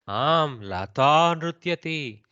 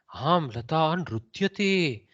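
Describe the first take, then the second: First: The stress falls on the word Lata. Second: The stress falls on the word nrutyati. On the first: It is Lata who is dancing. "puts the stress on Lata" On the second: Lata is indeed dancing. "the kaku goes on nrutyati"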